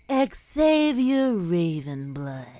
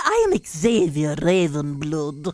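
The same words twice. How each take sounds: First: Low, slow dramatic name reveal; dramatic announcer. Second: Low, menacing self-introduction; villain entrance. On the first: Streamer announcing the villain's entrance, very low and slow. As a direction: drop low and drag the name out. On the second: Magician's rival introducing himself, much lower. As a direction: growl out the name, very low. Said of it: "Hello, I am here". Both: Retold or imitated.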